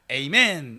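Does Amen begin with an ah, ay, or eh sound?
ay. The first vowel is 'ay', as in ay-men. "영어로도 에이멘 이러거든요"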